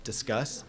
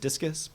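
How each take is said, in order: First: It sounds like the word discuss. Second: It sounds like the word discus. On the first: The speaker calls it right. "once you say it like that, you can actually start to see what it's going to be" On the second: The speaker calls it wrong. "which I was mispronouncing for a long time as Discus"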